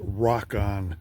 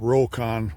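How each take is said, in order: First: The first part sounds like the word 'rock'. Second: The first part does not sound like 'rock'. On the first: The name refers to rocks. "the original intent was to have it uh, pronounced Rock On. That has to do with rocks" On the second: This is how many people say the name. "a lot of people call it Rokon"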